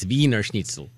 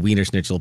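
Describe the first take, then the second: First: Wiener begins with a V sound. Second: Wiener begins with an English W sound. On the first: This is the German way of saying it. "German. It's" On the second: This is the American way of saying it. "Probably American. So we say"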